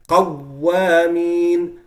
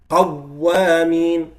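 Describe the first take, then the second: Both takes have the same delivery.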